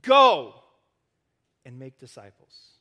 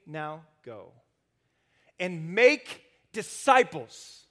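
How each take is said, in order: First: The mistaken reading that leans on "Go"; stress on GO. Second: The true command lands on "make"; stress on MAKE. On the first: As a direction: punch "Go", then drop away on "and make disciples". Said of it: "we think that it's probably go". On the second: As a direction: lean slowly into "make", keep "go" light. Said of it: "But Jesus is saying this". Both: Shown as a demonstration.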